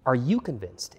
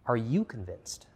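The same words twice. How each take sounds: First: Pressing louder repeat with weight on you; urgent repeat. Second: Slowed, probing question with weight on you; slow searching question. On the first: Preacher pressing the question on the congregation, louder. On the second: Preacher slowly asking the congregation to search themselves. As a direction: ask it slowly, letting it sink in. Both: Real, not acted.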